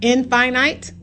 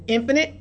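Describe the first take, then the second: First: "Infinite" said as in-FINE-ite; "Infinite" sounded out as in plus finite; spelling-style pronunciation. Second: Said in the usual way. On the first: Shown as a demonstration. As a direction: say "Infinite" with finite inside it, in-fye-nite. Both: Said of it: "but it's pronounced infinite".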